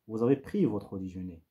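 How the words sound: The pitch falls at the end. It makes a statement. "une intention euh, descendante"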